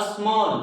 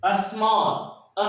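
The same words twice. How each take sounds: First: Said in the usual way. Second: small stretched out very slowly; drawn-out demonstration. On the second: Shown as a demonstration. Teacher introduces the next example word, drawn out slowly. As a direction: draw small right out, sound by sound. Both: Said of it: "next आपका है".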